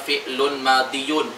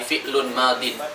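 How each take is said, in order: First: The second word ends with a full 'diyun' ending. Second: The second word ends with a shortened 'din' ending. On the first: This is the underlying full form, felt to be heavy. "Harusnya bacanya fi'lun madiyun" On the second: This is the lightened form actually used. "karena dari di ke yun itu berat, jadi fi'lun madin"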